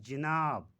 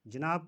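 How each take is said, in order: First: जनाब said ji-naab; जनाब as jinaab; mispronunciation. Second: जनाब said ja-naab; जनाब as janaab, long second syllable; correct pronunciation. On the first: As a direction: say जनाब with short i after the j. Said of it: "क्यों गलत बोलते हैं". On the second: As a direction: say जनाब with short a after the j. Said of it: "का सही तलफ़ुज़". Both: Shown as a demonstration.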